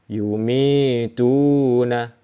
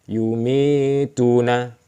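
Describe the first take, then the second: No difference in how they are said.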